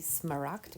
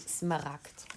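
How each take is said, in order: First: The R is pronounced like an English R. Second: The R is pronounced like a German R. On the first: The speaker calls it wrong. "we don't say smaragd" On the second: The speaker calls it right. "we say smaragd with another R"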